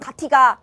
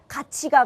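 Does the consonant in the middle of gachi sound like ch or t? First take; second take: t; ch. First: The second syllable starts with a t sound. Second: The second syllable starts with a ch sound. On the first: The speaker calls it wrong. "이런 친구 없죠" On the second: The speaker calls it right. "같이 가 그래"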